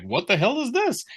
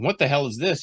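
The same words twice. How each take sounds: First: Much higher, jokey sitcom delivery; mock punchline. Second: Said in the usual way. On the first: Editor mocking the writer's line as a comic punchline. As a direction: toss it off like a movie punchline. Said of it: "like a punchline from a film". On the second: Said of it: "Mark wouldn't be going".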